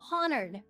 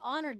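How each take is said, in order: First: The word starts with an audible H sound. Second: The word starts without an H sound. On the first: The speaker calls it right. "You gotta pronounce the H" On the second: The speaker calls it wrong. "it's not Awaken the Honored Dead"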